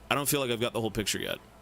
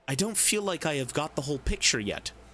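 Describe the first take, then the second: First: The words 'I have' are contracted to 'I've'. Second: The words 'I have' are said in full. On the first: "Or would you say" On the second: "saying it like this is way too fancy"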